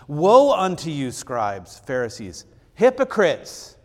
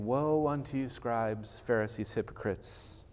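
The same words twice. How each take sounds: First: It is said loudly, with a raised voice. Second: It is said calmly, without a raised voice.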